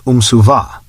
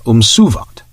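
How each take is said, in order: First: "Umsuva" stressed on the final syllable, -VA; stress on last syllable. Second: "Umsuvat" stressed on -SU-; stress on second syllable. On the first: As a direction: land on the end of "Umsuva". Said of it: "with the emphasis on the last syllable". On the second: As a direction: hit the middle of "Umsuvat". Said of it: "with the emphasis upon the second". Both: Shown as a demonstration.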